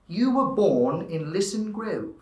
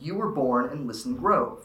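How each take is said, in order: First: It is said in standard British English, dropping R's. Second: It is said in a standard American accent. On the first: "if you were in standard English, it would change to dropping R's, heightening A's and O's" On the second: "would be in standard American, which is how most Americans would say it"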